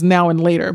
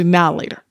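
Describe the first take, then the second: First: The word 'and' is pronounced fully. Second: The word 'and' is reduced almost away. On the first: The speaker calls it wrong. "I pronounced it as Now and Later" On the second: The speaker calls it right. "but it's actually Now Later"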